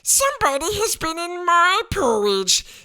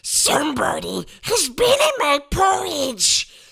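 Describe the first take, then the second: First: It is said in a medium, middle-sized voice. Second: It is said in a deep, rough, gruff voice.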